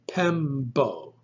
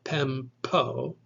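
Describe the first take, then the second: First: The consonant after M is a voiced B. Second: The consonant after M is a voiceless P. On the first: The speaker calls it right. "it's Pembo" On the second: The speaker calls it wrong. "You should not pronounce the P like a normal P. It's not Pempo"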